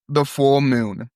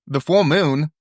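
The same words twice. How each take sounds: First: Slow, drawn-out THE FULL MOON; slow mysterious caller. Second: Higher pitch with FULL punched, then falling; surprised echo question. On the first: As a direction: stretch "The full moon" out evenly. Caller's line, then [name] repeats it. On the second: [name] repeats caller's words, surprised. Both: Acted.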